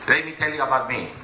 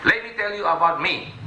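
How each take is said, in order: Both takes have the same delivery.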